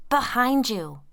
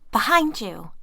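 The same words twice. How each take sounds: First: High loud warning. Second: Louder repeated warning, stress on behind; insist, hitting behind; urgent warning. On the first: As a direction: shout the warning. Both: A narrator's reading.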